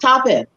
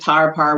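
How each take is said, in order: First: The name is said as one syllable, tape. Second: The name is said as two syllables, tar-par. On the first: This is how the person actually said their own name. The speaker calls it right. "So tape. That's what it would have. The, the person would have been saying" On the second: This is how a British listener heard the name. The speaker calls it wrong. "we don't say tarpar. We don't talk like that. We're not Europeans"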